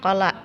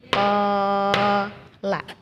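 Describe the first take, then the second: First: The first vowel is cut short. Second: The first vowel is held for two beats. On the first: The speaker calls it wrong. "jangan dibaca pendek" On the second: The speaker calls it right. "tapi dibaca panjang"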